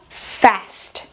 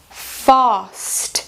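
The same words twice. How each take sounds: First: It has a short American 'a' vowel. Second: It has a long British 'a' vowel. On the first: "em americano, fica" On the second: "esse som comprido"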